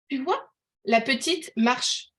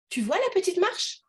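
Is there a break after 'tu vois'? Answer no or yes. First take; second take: yes; no. First: There is a break after 'tu vois'. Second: It runs on as one unbroken phrase. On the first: A little girl is walking. "vous voyez une petite fille qui marche" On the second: The small stair step is being pointed out. "vous voyez la marche d'escalier"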